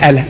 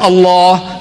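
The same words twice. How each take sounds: First: Quick "Allah" with light L and flat "a"; stubbornly wrong "al-LEH", cut short; mispronounced Allah. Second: Allah with heavy L and long open final vowel; drawn-out, rounded "Allah" as a model; correct pronunciation. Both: Retold or imitated. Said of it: "Not Allah".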